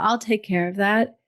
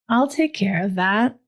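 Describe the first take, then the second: First: It is said quickly and casually. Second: It is said slowly after a breath. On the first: A habitual, automatic reply. "you would usually say" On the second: A present, embodied reply. "you can just take a breath and be in your body. I'm exaggerating to make the point"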